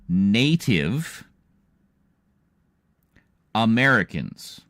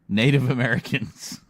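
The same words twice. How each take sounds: First: It is said slowly and deliberately. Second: It is said at a normal speed.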